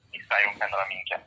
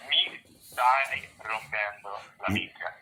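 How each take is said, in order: First: "Mi stai rompendo la minchia" run together fast and quieter; quick native take. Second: "Mi stai rompendo la minchia" slow and soft, every syllable spelled out; slow teaching take. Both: Shown as a demonstration. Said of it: "how would you say that correctly".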